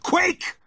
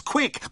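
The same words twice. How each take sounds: First: "quick" even higher and louder, peak of panic; frantic shout. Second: High, urgent "quick"; urgent shout. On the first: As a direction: scream the repeat at him. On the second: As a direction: snap it out in panic. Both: A narrator's reading. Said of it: "I shouted".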